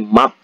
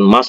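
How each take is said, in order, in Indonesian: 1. Kata ini berakhir dengan bunyi t. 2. Kata ini berakhir dengan bunyi s. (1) "tapi mat" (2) "dibaca bukan mas"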